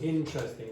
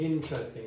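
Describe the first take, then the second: First: One weak syllable is dropped. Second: One weak syllable is dropped.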